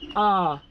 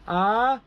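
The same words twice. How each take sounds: First: The pitch is held low and level. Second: The pitch goes from low to high. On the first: "low tone" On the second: "rising tone"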